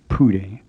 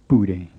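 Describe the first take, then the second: First: It starts with an English-like P sound. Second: It starts with a sound between P and B. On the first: The speaker calls it wrong. "it isn't quite like an English P, which would make the word sound like Pude" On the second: The speaker calls it right. "a Burmese P, which is somewhere in between those two English sounds"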